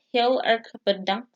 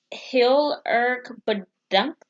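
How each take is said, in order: First: Said in the usual way. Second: Heel erg bedankt drawn out slowly, heel stressed; slow Dutch phrase. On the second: Shown as a demonstration. Teaching viewers Dutch thanks, slowly. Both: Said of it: "In Dutch is".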